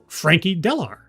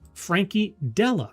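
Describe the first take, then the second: First: The surname ends with an R sound. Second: The surname ends without an R sound. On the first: The speaker calls it wrong. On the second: The speaker calls it right.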